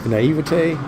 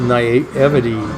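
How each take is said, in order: First: The word is pronounced the French way. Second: The word is pronounced the English way. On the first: The speaker calls it right. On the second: The speaker calls it wrong.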